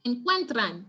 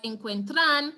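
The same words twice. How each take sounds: First: "encuentran" stressed on the middle syllable, cuen; stress on second-to-last syllable. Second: "encuentran" wrongly stressed on the last syllable, tran; misplaced stress. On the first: Teacher showing students the rule, "encuentran" stressed on cuen. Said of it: "that is why we would say". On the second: Teacher showing students a mistake, "encuentran" stressed on tran. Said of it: "and not look at it and say". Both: Shown as a demonstration.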